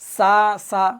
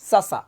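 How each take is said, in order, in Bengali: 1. "sa sa" অক্ষর দুটো ধীরে ও টেনে পড়া হয়। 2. "sa sa" অক্ষর দুটো একসাথে দ্রুত পড়া হয়। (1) "এভাবে যদি কেউ পড়ে সা সা, ভুল" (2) "হরকতের উচ্চারণ তাড়াতাড়ি পড়তে হবে"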